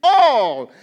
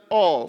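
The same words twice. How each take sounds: First: "All" loud and drawn out; emphasized word. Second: Said in the usual way. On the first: Real, not acted. Preacher wants it circled, "All" said with loud emphasis. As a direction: belt out "All" as the key word. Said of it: "I just want to emphasize those words". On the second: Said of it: "if you can circle that".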